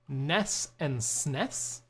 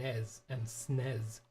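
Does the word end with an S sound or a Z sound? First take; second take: S sound; Z sound. First: The words end with a hissing S sound. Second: The words end with a buzzing Z sound. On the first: This is how many other people say it. "a lot of people say Ness and Snes" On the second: This is how the speaker has always said it. "I always said it with like a Z sound"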